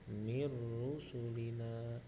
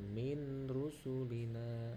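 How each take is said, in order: First: The n merges fully into the following r. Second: The n is kept separate before the r. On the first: The speaker calls it right. "Jadi bacanya nunnya disatukan dengan ro" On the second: The speaker calls it wrong. "bukan min rusulina. Nah, itu salah"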